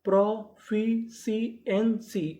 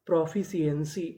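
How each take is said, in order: First: "proficiency" very slowly, a gap between sounds; teacher building "proficiency" from its parts; syllable by syllable. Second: Said in the usual way. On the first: Shown as a demonstration. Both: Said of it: "तो पूरी meaning क्या बनी".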